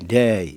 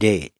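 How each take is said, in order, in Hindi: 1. स्वर खिंचा हुआ और लंबा है। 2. स्वर छोटा और कटा हुआ है। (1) "अमेरिका में जाके ... थोड़ा सा लंबा होने देते" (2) "यूके में ... छोटा सा"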